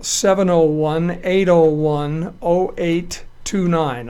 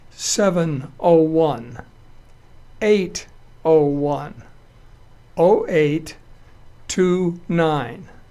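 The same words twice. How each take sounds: First: The number is read at a quicker pace. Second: The number is read at a slower pace.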